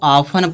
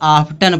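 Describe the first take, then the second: First: The t sound is silent in the middle. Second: The t sound is pronounced in the middle. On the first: The speaker calls it right. "इसको ऑफन पढ़ा जाएगा। ... टी क्या है? साइलेंट है" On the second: The speaker calls it wrong. "इसको बहुत लोग आफ्टन पढ़ते हैं"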